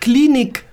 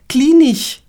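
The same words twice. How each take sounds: First: The word ends with a k sound. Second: The word ends with a ch sound. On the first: The speaker calls it right. "statt Klinik" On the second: The speaker calls it wrong. "die wollen ein CH sagen, wo es nicht geht"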